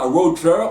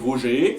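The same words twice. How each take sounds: First: The name is pronounced in an English-like way. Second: The name is pronounced in a French way. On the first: This is how it is said in Quebec. The speaker calls it wrong. "On dit pas Roger" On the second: This is how it is said in France. The speaker calls it right. "on dit Roger"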